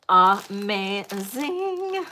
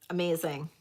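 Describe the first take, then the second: First: "Amazing" stretched long and slow; drawn-out gush. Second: Said in the usual way. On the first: Shown as a demonstration. Seller gushing to viewers, "Amazing" drawn out slowly. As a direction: savour every sound of "Amazing".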